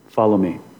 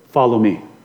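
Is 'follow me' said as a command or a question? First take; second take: command; command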